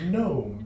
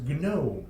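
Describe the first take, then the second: First: The G is silent, English-style. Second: The G is sounded, Russian-style.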